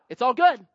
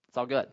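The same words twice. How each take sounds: First: Louder, breezy it's all good; mock breezy. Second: Said in the usual way. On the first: Shown as a demonstration. Preacher mocking the easy excuse, breezy. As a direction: toss it off like nothing matters. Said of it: "repeated mocking then flat". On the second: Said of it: "repeated flat".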